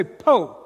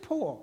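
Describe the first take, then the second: First: "Po." with the R dropped, southern Alabama way. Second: Put-on "poor" in a British accent, soft and full vowel. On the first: Retold or imitated. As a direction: say "Po." as the locals did, no final R. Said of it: "But I heard people say". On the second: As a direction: answer with a British "poor", much quieter. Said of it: "I thought you said poor".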